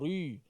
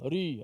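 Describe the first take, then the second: First: The r is pronounced heavy and thick. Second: The r is pronounced lazily with little effort. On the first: "Ri tebal lah tu" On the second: "malas sangat"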